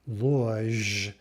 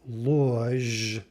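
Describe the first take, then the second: The two takes are said the same way.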